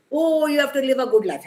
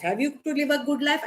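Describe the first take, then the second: First: High, loud sarcastic echo of the church; hammed-up preachy quote; mocking church demand. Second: Sceptical question. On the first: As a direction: toss it off as a mock sermon line. Quoting what churches demand. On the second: Real, not acted. Questions the church demand.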